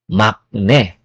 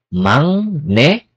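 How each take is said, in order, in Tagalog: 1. Ang gitnang katinig ay tunog k. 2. Ang gitnang katinig ay tunog ng. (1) "not makne" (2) "ibig sabihin yan is mangne"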